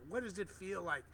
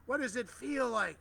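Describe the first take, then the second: First: Said in the usual way. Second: Higher and louder, urging the crowd; rousing call. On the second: Acted. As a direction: lift the question up like a preacher. Asks twice, second far stronger.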